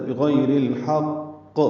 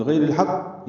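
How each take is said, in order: First: بغیر الحق slow with a clear qaf bounce; بغیر الحق correctly with qalqala; correct reading. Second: بغیر الحق said quickly with the qaf swallowed; wrong reading. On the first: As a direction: take بغیر الحق slowly, pressed qaf. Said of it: "یہ بھی غلط ہے". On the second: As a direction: rush بغیر الحق, no qalqala. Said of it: "یہ غلط ہے". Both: Shown as a demonstration.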